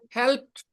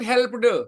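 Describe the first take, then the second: First: The ending is a short t sound. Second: The ending is an extra ed syllable. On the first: The speaker calls it right. "you pronounce helped" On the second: The speaker calls it wrong. "not helped"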